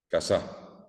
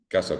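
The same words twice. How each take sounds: First: The stress is on the second syllable. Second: The stress is on the first syllable. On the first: "si yo pongo la S, en la S A pongo la A, va a decir casa" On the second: "quiere decir que está en la A de K"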